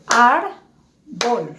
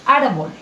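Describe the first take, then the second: First: "árbol" in two slow beats, ár... bol; syllable by syllable. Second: Said in the usual way. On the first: Shown as a demonstration. Teacher shows how to pronounce by syllables, syllable by syllable. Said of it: "voy a pronunciar por sílabas". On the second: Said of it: "este dibujo me representa".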